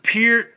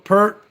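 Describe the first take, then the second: First: The name is said the Canadian way. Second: The name is said the American way. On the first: "Canadians pronounce it Peart" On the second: "Americans, we always called it Pert"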